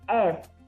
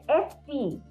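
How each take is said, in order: First: The name ends on the f sound. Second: The name ends with an added vowel. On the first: This is the English way. The speaker calls it wrong. "in English it's F" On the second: This is the Portuguese way. The speaker calls it right. "but it's F P. Bit longer"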